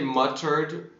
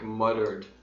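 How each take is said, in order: First: The middle consonant is a clear T sound. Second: The middle consonant is a soft D sound. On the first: The speaker calls it wrong. "we don't actually say it like I just said it" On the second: The speaker calls it right. "It sounds more like a D"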